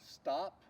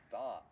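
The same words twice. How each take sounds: First: Rising signal call. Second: Low falling call. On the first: Signalman demo calling stop to the trains, rising. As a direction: stop called on a lifted, rising pitch. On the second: Signalman demo giving a firm low falling stop. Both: Shown as a demonstration. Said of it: "Might be like".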